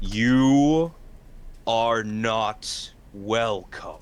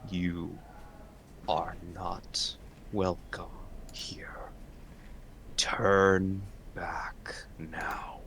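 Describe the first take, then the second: First: Loud, slow commanding undead voice; deep rumbling voice. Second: Deep rumbling voice. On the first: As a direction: boom it out with dread. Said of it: "deep and rumbling voice, one filled with authority". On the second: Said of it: "all of you hear a deep and rumbling voice". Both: Acted.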